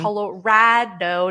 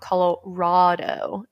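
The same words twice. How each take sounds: First: The stressed middle vowel sounds like 'rad'. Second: The stressed middle vowel sounds like 'rod'. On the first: The speaker calls it right. "my way" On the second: The speaker calls it wrong. "not Colorado"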